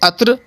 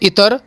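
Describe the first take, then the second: First: It starts with 'a' and ends in 'tr'. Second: It starts with 'i' with a vowel before r. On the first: "सब के सब गलत हैं" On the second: "सब के सब गलत हैं"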